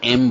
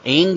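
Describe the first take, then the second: First: The word ends with an m sound. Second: The word ends with an ng sound. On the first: The speaker calls it right. "इसलिए एम बोला जाता है" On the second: The speaker calls it wrong. "एंग नहीं बोलना है आपको"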